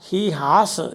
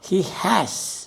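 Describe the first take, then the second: First: The vowel in 'has' is a long 'ah'. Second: The vowel in 'has' sounds as in 'apple'. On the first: The speaker calls it wrong. "ഇങ്ങനെ പറയരുത്" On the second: The speaker calls it right. "ആപ്പിൾ എന്ന് പറയല്ലേ"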